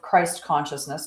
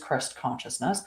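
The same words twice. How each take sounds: First: Christ has a long I, as in 'eye'. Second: Christ has a short I, as in 'Christmas'. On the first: The common public form. The speaker calls it wrong. "I say it for that, for public" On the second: The original true name. The speaker calls it right. "with a soft I, like Christmas"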